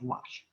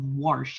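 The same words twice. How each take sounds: First: It is said without an r sound. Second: It is said with an r sound, like warsh. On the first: The speaker calls it right. "instead of wash" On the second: The speaker calls it wrong. "that pet peeve of wash"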